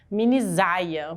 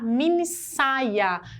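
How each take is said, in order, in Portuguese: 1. A consoante do meio tem som de Z. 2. A consoante do meio tem som de S. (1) "porque o S entre duas vogais tem som de Z" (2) "A gente quer falar minissaia"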